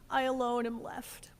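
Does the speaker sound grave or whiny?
whiny. It is said in a whiny, pathetic voice. He is feeling sorry for himself. "in his most whiny and pathetic voice"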